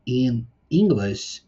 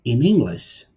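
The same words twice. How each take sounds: First: "in English" said slowly, each word separate; "in English" drawn out as two separate words, before linking; in English, words apart. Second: "In English" run together as one word, "inEnglish"; in English, linked. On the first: Teacher shows the words apart, slow and separate. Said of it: "normalmente eu vou falar ele como se fosse uma palavra só". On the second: Teacher shows students the linked version, joined smoothly. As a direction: join "In English" smoothly with no break, like a single word. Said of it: "Então eu vou juntar". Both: Shown as a demonstration.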